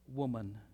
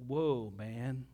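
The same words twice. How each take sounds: First: Said in the usual way. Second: "Whoa, man" as two separate words, low; punning split of woman. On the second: Shown as a demonstration. Preacher joking on the word woman, "Whoa, man" split in two. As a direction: stretch "Whoa" and set "man" apart, like an awed aside. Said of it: "Or some context".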